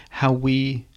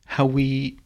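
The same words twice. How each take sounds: The two takes are said the same way.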